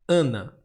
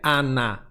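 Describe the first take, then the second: First: The first vowel is closed and nasal. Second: The first vowel is open and oral. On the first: The speaker calls it right. "esse A fechou" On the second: The speaker calls it wrong. "não é Ana que você fala"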